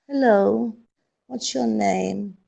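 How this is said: It is said in a sad, gloomy tone. "but as if you're sad"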